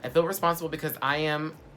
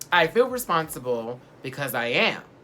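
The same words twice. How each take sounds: First: The sentence is read quickly. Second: The sentence is read more slowly. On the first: The speaker calls it wrong. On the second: The speaker calls it right.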